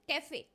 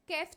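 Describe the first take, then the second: First: The word ends on a vowel sound. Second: The word ends on a consonant sound. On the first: The speaker calls it right. "ई के ऊपर sign लगा हुआ है, देखिए कैफे" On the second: The speaker calls it wrong. "कैफ तो नहीं बोलते ना"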